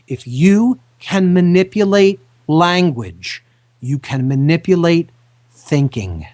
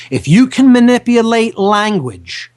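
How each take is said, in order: First: Slowed down, each word placed carefully; slow and deliberate. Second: Louder, pushed statement; emphatic warning. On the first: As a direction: spell it out slowly so they listen. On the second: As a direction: hit it hard as a warning. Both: Shown as a demonstration. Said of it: "listen to this very carefully".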